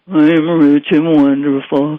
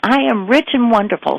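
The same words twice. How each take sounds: First: It is said in a gloomy, Eeyore-like tone. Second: It is said in an upbeat, joyful tone.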